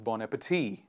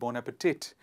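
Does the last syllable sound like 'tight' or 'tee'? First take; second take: tee; tight. First: The last syllable sounds like 'tee'. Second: The last syllable sounds like 'tight'. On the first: The speaker calls it right. "it is bon appetit" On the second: The speaker calls it wrong. "It is not bon appetit"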